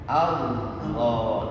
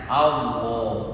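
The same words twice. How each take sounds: First: The L touches the gum ridge, with a full sound. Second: The L does not touch the gum ridge. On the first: The speaker calls it right. "ditempelkan lidah ujung lidah kita di pangkal gigi seri atas" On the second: The speaker calls it wrong. "banyak yang menyebutkan Allah itu salah ... ujung lidah kita tidak nempel di pangkal"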